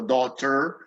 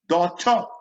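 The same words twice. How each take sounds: First: The word ends with a sounded r. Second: The word ends with an uh vowel. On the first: The speaker calls it wrong. "every single letter, so daughter, technically wrong" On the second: The speaker calls it right. "U H"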